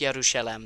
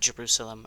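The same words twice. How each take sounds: First: The name is said with a local-style pronunciation. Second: The name is said with the usual English pronunciation. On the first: "the closer to home pronunciation" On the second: "not Jerusalem"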